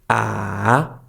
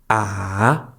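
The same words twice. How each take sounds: Both takes have the same delivery.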